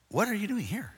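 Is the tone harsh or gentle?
gentle. It is said as a gentle, plain question.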